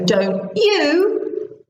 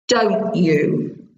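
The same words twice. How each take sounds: First: The voice rises at the end. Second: The voice falls at the end. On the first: The speaker is not sure about the answer. "your voice needs to go up in the tag" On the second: The speaker is sure about the answer. "and down"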